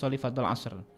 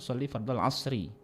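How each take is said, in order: First: The last word ends on a bare consonant. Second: The last word ends with a short vowel. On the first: "kalau nak dimatikan" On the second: "yang paling afdal"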